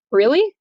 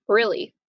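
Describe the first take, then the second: First: High, loud disbelieving really; stunned rising really; shocked question. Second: Said in the usual way. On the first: Retold or imitated. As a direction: Juliet betrayed by the nurse. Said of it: "And Juliet says". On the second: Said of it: "And the nurse says".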